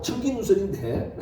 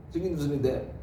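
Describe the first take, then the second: First: Said in the usual way. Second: 청긴 우선인데 said again through a laugh; laughing repeat. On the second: Real, not acted. Preacher laughs at his own slip while repeating 청긴 우선인데.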